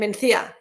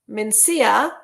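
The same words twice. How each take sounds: First: The c is said as a lisped th sound. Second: The c is said as a plain s sound. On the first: It is said with the royal lisp. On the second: It is said without the royal lisp.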